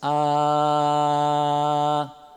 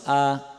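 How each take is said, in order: First: The vowel is held long. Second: The vowel is cut short. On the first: "Aquele primeiro ficou breve em relação a esse" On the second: "aquele primeiro que eu falei ficou mais longo do que esse"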